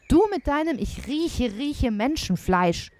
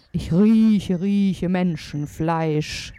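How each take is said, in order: First: Exasperated wife mimicking her husband; mocking wife. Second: Loud, very slow giant voice; drawn-out storybook giant's roar; giant calling out. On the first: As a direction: throw his phrase back at him mockingly. Wife mocks the giant's phrase. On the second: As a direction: bellow it slowly, stretching each word. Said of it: "rief der Riese". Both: A narrator's reading.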